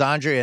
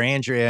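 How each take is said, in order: First: "Andrea" starting with an open "AHN"; open 'ah' pronunciation. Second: "Andrea" starting like "and"; short 'a' pronunciation. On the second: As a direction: say "Andrea" as AN-dree-uh. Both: Shown as a demonstration. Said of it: "everyone called her Andrea".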